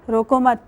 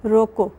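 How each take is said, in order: First: "روکو مت" said together, then a stop; pause after روکو مت. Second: "روکو" said alone, then a clear stop; pause after روکو. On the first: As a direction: break only after "روکو مت". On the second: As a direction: break right after "روکو". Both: Shown as a demonstration. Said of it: "دوبارہ کوٹ کرتی ہوں".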